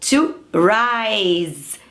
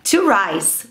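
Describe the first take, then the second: First: The word ends with a voiced z sound. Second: The word ends with a voiceless s sound. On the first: The speaker calls it right. "tem esse somzinho de z" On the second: The speaker calls it wrong. "não é to rise. Rice é arroz"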